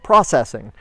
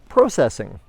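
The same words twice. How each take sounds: First: It is said in an American pronunciation. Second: It is said in a non-American pronunciation.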